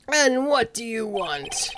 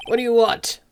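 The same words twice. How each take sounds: First: Lightly voiced old man, slow; drawn-out, unhurried question; slow, lightly voiced old attorney asking; slow old lawyer. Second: Quicker, impatient demand; mild gruff old attorney demanding; brusque old lawyer. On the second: Acted. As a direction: snap the question at the boy. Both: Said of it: "what should his voice be?".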